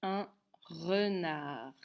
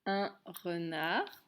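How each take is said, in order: First: Very slow, drawn-out dictation; dictation pace. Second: Slow, deliberate reading; slow correction. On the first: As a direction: stretch it out for writing. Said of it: "comment on écrit un renard". (dictée très lente, bien étirée) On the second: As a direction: read it back slowly. (correction lente et posée) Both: Shown as a demonstration.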